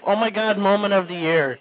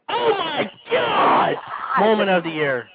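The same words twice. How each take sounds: First: It is said in a slurred, sleepy, low-energy voice. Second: It is said in a loud, excited, high-energy voice. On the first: It mimics someone drunk talking to himself. The speaker calls it wrong. "his drunken stupor" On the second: It is the proper announcer-style delivery. The speaker calls it right. "let's just do it properly"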